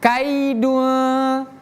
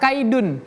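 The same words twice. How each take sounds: First: The final n is hidden in a nasal sound. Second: The final n is pronounced clearly and fully. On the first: The speaker calls it right. "tapi kaidun ... namanya ikhfa" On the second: The speaker calls it wrong. "kita tidak baca kaidun"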